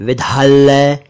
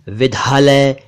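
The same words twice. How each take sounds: Both takes have the same delivery.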